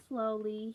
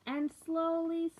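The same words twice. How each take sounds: First: Said in the usual way. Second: High, loud, stretched "slowly"; a big lifted "slowly" for the kids; drawn-out slowly. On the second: A narrator's reading. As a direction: sing out "slowly" high and long, then drop. Story drawn out for children.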